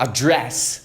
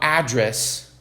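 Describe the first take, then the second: First: The stress is on the second syllable. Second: The stress is on the first syllable. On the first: It means speaking to someone directly. "muda totalmente? Se dirigir a alguém?" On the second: It means the place where someone lives. "é endereço"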